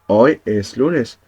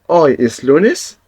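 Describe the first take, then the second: First: It is said with a plain statement tone. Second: It is said with a questioning tone. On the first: It states that today is Monday. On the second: It asks whether today is Monday.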